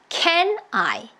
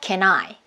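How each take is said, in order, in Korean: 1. 두 단어가 따로따로, 끊어서 발음돼요. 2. n이 I와 붙어서 한 단어처럼 들려요. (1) "이렇게 choppy, choppy 끊어서 소리를 내지 않고" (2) "하나의 이렇게 긴 단어다라는 생각으로"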